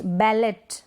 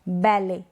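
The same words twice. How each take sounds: First: बैलेट ending on a t; T sounded. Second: बैले ending on a vowel; silent T. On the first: Teacher showing the misreading, बैलेट with final t. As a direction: say बैलेट as "bal-et". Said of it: "नहीं पढ़ेंगे". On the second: Teacher modelling the correct reading, बैले without t. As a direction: say बैले as "bal-ay", no t. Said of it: "इसलिए हम पढ़ेंगे". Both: Shown as a demonstration.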